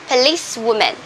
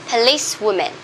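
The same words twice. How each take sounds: Both takes have the same delivery.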